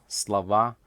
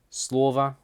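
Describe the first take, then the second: First: "слова" stressed on the final а, sla-VA; stress on last syllable. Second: "слово" stressed on the first о, SLO-va; full о at the start of "слово", weak ending; stress on first syllable. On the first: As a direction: reduce the о, land on the end of "слова". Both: Shown as a demonstration. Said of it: "spelt the same but pronounced differently".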